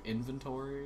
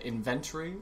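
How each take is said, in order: First: The word is said the non-British way. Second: The word is said the British way. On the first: The speaker calls it right. "instead of inventory" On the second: The speaker calls it wrong. "he said inventory"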